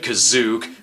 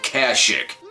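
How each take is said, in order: First: The name is said ending in a 'zook' sound. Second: The name is said with its usual ending.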